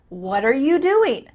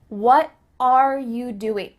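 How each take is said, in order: First: What and are are joined into one syllable. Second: What and are are said as separate words.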